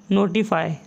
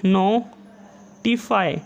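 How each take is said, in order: First: Said in the usual way. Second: notify drawn out very slowly, each syllable held; slowly stretched dictation. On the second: Shown as a demonstration. Teacher dictating notify to shorthand students, very slowly stretched.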